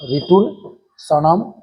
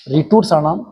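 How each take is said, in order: First: Slow recitation. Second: Said in the usual way. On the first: Shown as a demonstration. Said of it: "teacher repeats it slowly". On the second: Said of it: "teacher recites the sutra".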